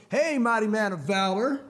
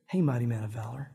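First: Drawn-out, teasing hail; slow it down like a cool buddy; cool movie guy. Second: Low, grave voice of God Almighty; all seriousness. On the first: Cool guy greets his scared buddy, mocking. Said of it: "or the cool guy in the movie". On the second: God addresses Gideon in the hole, dead serious. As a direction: drop it deep and mean it solemnly. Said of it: "with all seriousness of God Almighty". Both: Acted.

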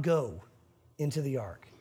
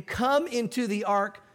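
First: "go into the ark" dropped much lower and softer; wrong wording. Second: "Come" drawn out and slow, leaning on it; stress on come. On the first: Preacher showing the wording God did not use, low and soft. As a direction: throw away "go" low and quiet as the wrong word. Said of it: "Come into the ark, not go". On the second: Preacher contrasting God's word "Come" with go, slow and stressed. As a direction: slowly lean into "Come" as an invitation. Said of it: "not go into the ark". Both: Shown as a demonstration.

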